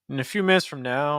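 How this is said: The pitch stays on one level throughout. The speaker calls it wrong. "you're giving me kind of same pitch pattern"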